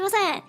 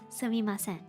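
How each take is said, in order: First: It is said quickly and clipped. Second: It is said at a normal, careful pace.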